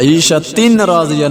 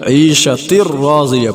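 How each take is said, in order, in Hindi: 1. न की आवाज़ र से पहले बोली जाती है। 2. न की आवाज़ दोहरे र में मिल जाती है। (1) "ईशा तीन राजिया नहीं पढ़ेंगे" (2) "ईशा तिर राजिया पढ़ेंगे"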